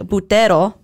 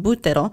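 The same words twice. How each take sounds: First: The stress falls on a later syllable. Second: The stress falls on the first syllable. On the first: "So we would want to say buttero" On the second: "the emphasis is right away in the first syllable"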